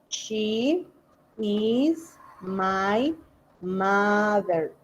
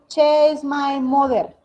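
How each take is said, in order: First: The first word's vowel sounds like 'ee'. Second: The first word's vowel sounds like 'eh'. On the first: The speaker calls it right. "como lo escuché" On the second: The speaker calls it wrong. "se te va a olvidar y de pronto dices"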